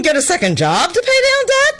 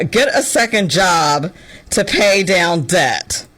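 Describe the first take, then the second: First: "get a second job to pay down debt?" much higher, rising in mock disbelief; incredulous. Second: Said in the usual way. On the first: Quoting the advice back at Gen Z, high incredulous rise. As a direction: repeat the advice as if unheard-of. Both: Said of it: "What do you mean".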